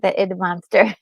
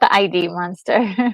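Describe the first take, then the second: First: Id is said as one short word. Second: Id is spelled out as two letters. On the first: The speaker calls it right. "That's right, the id monster" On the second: The speaker calls it wrong. "Not the I D monster"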